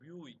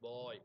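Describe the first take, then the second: First: The vowel glides from oo to ee. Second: The vowel is an eye diphthong. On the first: This is the older pronunciation. "பூ பியூஒய் பியூய் அப்படின்றது" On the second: This is the modern pronunciation. "இப்போ நம்ம பா பாய் பிஓஒய் பாய் அப்படின்னு நம்ம pronounce பண்ணுறோம்"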